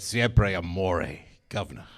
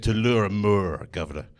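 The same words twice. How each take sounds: First: Very slow mock seduction, governor dropped low and soft; drawn-out hammed-up Italian lover. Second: Lightly voiced French lover, slowed down. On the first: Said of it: "and said". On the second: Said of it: "She said".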